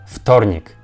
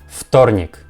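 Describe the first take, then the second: The two takes are said the same way.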